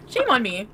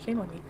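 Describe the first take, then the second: First: Emphatic, full-voiced outburst; exclaimed. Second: Low, soft muttered aside; subdued. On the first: Streamer repeats the phrase on themself, exclaiming it. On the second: Acted. Streamer tries the phrase on themself, low and subdued. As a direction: say it under your breath, pitched down. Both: Same words repeated, second bigger.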